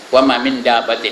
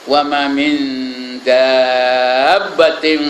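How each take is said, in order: First: The n before d is pronounced plainly. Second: The n before d is softened and nasalized. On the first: The speaker calls it wrong. "saya baca lajak lajak aja" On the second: The speaker calls it right. "mesti ikhfa ustaz"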